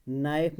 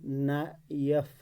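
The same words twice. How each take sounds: First: Said in the usual way. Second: knife drawn out slowly, na, pause, if; split into syllables. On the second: Shown as a demonstration. Teacher showing the word has two syllables, split into syllables. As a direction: stretch knife into two separate beats. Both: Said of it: "knife में दो".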